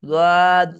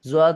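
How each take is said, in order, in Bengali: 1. নামটি d-এর মতো ধ্বনি দিয়ে শুরু হয়। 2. নামটি z-এর মতো ধ্বনি দিয়ে শুরু হয়।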